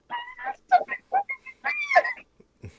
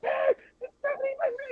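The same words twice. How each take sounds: First: Very high, slow, half-crying squeal; starstruck wail. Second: High fangirl squeal; starstruck squeal. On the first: After being told to chill, she squeals at Stephanie McMahon even harder, very high and slow. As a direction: stretch it out like you're about to cry from excitement. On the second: Telling friend how she reacted to Stephanie McMahon, a high starstruck squeal. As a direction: squeal like meeting your idol up close. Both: Retold or imitated.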